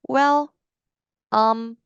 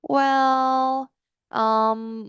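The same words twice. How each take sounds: First: The fillers are short and clipped, then silence. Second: The fillers are drawn out in one long breath. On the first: The speaker calls it wrong. "이렇게 스타카토로 끊으시고 공백을 뒤에 남겨두는" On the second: The speaker calls it right. "이렇게 생각날 때까지 한 호흡 길게 뱉어주시면 됩니다"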